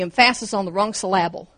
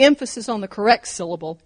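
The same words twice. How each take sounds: First: "emphasis" and "syllable" each stressed on the second syllable; stress on wrong syllables. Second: "emphasis" and "syllable" each stressed on the first syllable; stress on correct syllables. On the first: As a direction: say em-PHA-sis for "emphasis" and syl-LA-ble for "syllable". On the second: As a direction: say EM-pha-sis for "emphasis" and SYL-la-ble for "syllable". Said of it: "it sounds right". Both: Shown as a demonstration.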